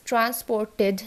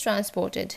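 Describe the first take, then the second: First: "transported" with a heavy "TED"; full E in the last syllable of "transported"; wrong ED ending. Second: "transported" with a light "tid"; short I in the last syllable of "transported"; correct ID ending. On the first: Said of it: "it is transported না". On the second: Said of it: "it is transported". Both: Shown as a demonstration.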